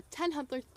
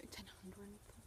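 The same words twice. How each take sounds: First: Said in the usual way. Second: Barely audible, voiceless whisper; whispered aside. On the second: Real, not acted. Vlogger repeats her own odd phrase to herself, whispered. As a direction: whisper it under your breath.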